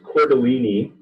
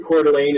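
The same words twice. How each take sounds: First: The name ends with an extra 'leeny' syllable. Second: The name ends with a single 'lean' syllable. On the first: This is how many people get it wrong. The speaker calls it wrong. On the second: This is how the name really goes. The speaker calls it right.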